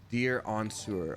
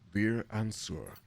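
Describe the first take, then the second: First: It is said in the normal voice. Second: It is said in a Mind Flayer voice.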